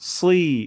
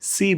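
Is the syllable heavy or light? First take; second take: heavy; light. First: The syllable is heavy and thick. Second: The syllable is light and thin. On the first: The speaker calls it right. "একটু মোটা করে" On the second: The speaker calls it wrong. "এখানে অনেকে ভুল করেন"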